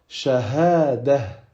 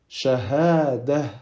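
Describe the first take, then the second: No difference in how they are said.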